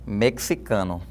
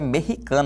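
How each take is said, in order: First: The x is pronounced as ks. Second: The x is pronounced as a throaty h. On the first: This follows the formal standard. The speaker calls it right. "Que tem a som de ks, ks" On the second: This is an informal pronunciation. The speaker calls it wrong. "ele transforma esse som do X num som de rota"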